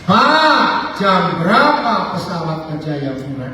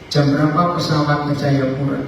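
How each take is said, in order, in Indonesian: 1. Suaranya meninggi, tinggi dan tegas. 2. Suaranya tenang dan nadanya normal.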